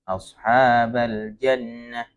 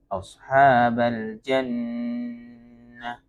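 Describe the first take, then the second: First: The doubled n is rushed and cut short. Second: The doubled n is pressed and held. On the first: The speaker calls it wrong. "ketika membaca karena dia mau wakaf akhirnya terburu-buru" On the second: The speaker calls it right. "jadi tetap ditekan"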